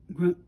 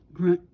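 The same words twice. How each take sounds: The two takes are said the same way.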